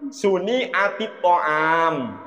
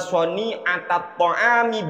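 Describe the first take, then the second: First: The first word begins with 'su'. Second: The first word begins with 'sa'. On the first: The speaker calls it wrong. "Padahal yang benar bukan gitu" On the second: The speaker calls it right. "Bunyinya gini"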